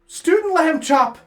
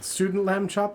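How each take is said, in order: First: It is said cheerfully, with enthusiasm. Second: It is said flatly, without enthusiasm. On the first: The speaker calls it right. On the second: The speaker calls it wrong.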